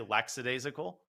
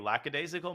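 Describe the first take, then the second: First: It is said with an s sound after 'lack'. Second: It is said with no s sound after 'lack'. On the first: The speaker calls it wrong. "Most people say lackadaisical, which is actually wrong. There's no s there" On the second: The speaker calls it right.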